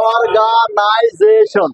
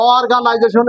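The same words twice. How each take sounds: First: অর্গানাইজেশন very slowly, broken into syllables; teacher sounding out অর্গানাইজেশন in slow, separate syllables. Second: Said in the usual way. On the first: Shown as a demonstration. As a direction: stretch অর্গানাইজেশন out, one syllable at a time. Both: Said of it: "এইভাবে syllable ভাঙ্গি ভাঙ্গি করবা".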